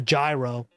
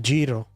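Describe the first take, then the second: First: The word is said the American way. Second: The word is said the Greek way. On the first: The speaker calls it wrong. "You stupid American peasants call it a gyro" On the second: The speaker calls it right. "apparently that's how you say it"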